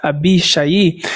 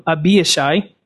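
First: Abishai said as in Hebrew, with "sha-ee" at the end; Hebrew pronunciation. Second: Said in the usual way. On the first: Shown as a demonstration. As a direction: sound out Abishai the Hebrew way, two vowels closing it. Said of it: "how you would pronounce it in Hebrew". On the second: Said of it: "how you would pronounce it".

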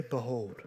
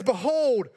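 First: "Behold" dropped low and soft, barely said; "Behold" as a limp, quiet aside; flat, muted "Behold". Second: Said in the usual way. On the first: Shown as a demonstration. Correcting the wrong reading, "Behold" said low and soft. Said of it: "He doesn't say". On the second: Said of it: "He doesn't say, "Behold".

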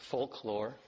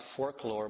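First: "folklore" said as folk-lore, without the r; corrected pronunciation. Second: "folklore" mispronounced as "forklore"; slipped pronunciation. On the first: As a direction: say "folklore" carefully, first part as folk. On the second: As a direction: say "folklore" with an r, like fork-lore. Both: Shown as a demonstration. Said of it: "but actually folklore".

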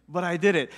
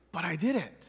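First: Said in the usual way. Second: Quietly, almost to yourself; a hushed, weary "but I did it". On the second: Real, not acted. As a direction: drop the voice on the first take.

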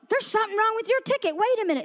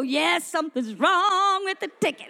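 First: Higher, hurried official calling a halt; lightly acted agent flagging a problem; quick, higher-pitched interruption; ticket agent. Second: Gleeful re-enacted celebration; excited. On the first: Ticket agent stops the traveler. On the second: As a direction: draw out WRONG with delight. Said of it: "I was so excited".

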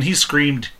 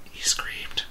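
First: Said in the usual way. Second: Whispered, much softer repeat; whispered for emphasis; hushed emphasis. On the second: Retold or imitated. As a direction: drop to a grave whisper to drive it home.

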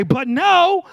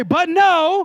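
First: Higher, louder sassy "But no."; sassy attitude. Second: Loud, high sassy shout of "But no"; attitude shout. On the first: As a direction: throw it out with some attitude. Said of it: "say no like you got some attitude". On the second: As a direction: shout it back with full attitude. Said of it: "some of y'all have better attitude". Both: Shown as a demonstration.

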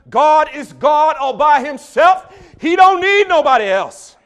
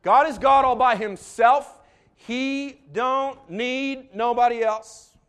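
First: Building from firm to roaring, slow preacher cadence. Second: Slow, loud, high preacher cadence; Alabama preacher again. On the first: Retold or imitated. Imitating the Alabama preacher to the congregation, building to a roar. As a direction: climb each line into a full-throated Alabama preacher roar. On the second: Shown as a demonstration. Proving to the congregation he can preach that way, slow and loud. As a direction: show them he can preach like that, drawn out. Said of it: "I can".

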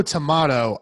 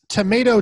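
First: Tomato said as tuh-MAH-to; British tomato, MAH in the middle; tomato with a broad A. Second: Tomato said as tuh-MAY-to; American tomato, MAY in the middle; tomato with a long A. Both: Shown as a demonstration. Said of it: "the pronunciation of that A".

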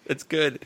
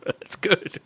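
First: Said in the usual way. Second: Breathy whisper, half to self. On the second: Real, not acted. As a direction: whisper it under your breath. Whispered reply after a joke.

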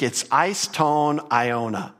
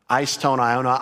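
First: "eis ton aiona" spelled out slowly, each Greek word given its own weight; slow Greek pronunciation. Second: Said in the usual way. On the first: Shown as a demonstration. Preacher slowly sounds out the Greek phrase for his congregation. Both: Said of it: "I've got it there in the Greek".

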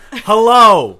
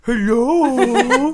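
First: Loud high drawn-out hello; a cheesy pickup hello; creepy hello. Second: Put-on high, loud baby-talk hello. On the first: Pretend. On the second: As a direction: coo it like talking to a baby. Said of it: "Maybe that's what you should change your hello".

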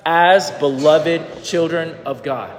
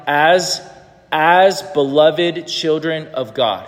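First: Slow, deliberate repeat; slow reading aloud again. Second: Measured, deliberate recitation; slow reading aloud. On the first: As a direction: read it word by word. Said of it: "Can you say that one more time?". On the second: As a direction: read slowly, word by word. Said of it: "Would you read this out loud?". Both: Shown as a demonstration.

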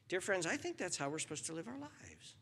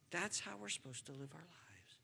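First: Said in the usual way. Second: Softly whispered repeat of the line. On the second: Shown as a demonstration. Preacher to congregation, whispered echo. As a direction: breathe the words, no voice.

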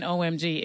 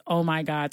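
First: "O M G" spelled out as three letters. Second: Said in the usual way. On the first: Shown as a demonstration. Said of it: "it wasn't even". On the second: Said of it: "spelled out".

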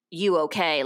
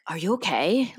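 First: Offhand check-in with a falling end; everyday, unworried greeting; casual greeting. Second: Worried check-in with a rising question; mildly alarmed, imitating concern. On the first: Retold or imitated. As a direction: toss it out as a simple hello. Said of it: "How are you?". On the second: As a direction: ask as if something might be wrong. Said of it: "they were, like, concerned".

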